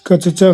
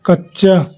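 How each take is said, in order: First: कचचा broken apart as ka-cha-chaa; split consonants. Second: कच्चा with a doubled ch, kach-chaa; joined consonants. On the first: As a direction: say कचचा with each च separate. (कचचा में दोनों च अलग-अलग बोलें) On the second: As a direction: hold the double च in कच्चा, no vowel inside. (कच्चा में दोनों च जोड़कर बोलें) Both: Shown as a demonstration. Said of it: "शब्द का संयुक्त रूप".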